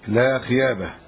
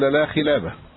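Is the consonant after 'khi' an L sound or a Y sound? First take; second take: Y sound; L sound. First: The middle consonant is a y sound. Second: The middle consonant is an l sound. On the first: A speech defect turns the sound into another. The speaker calls it wrong. "فكان يقولها هكذا لا خيابه، ينطق اللام ياء" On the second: The word as it should be pronounced. The speaker calls it right. "ولا يمكنه أن يقول لا خلابه"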